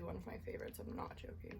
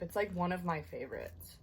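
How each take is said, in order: First: Soft unvoiced whisper. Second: Said in the usual way. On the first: Real, not acted. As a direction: whisper it close to the mic. Repeats it, then whispers it.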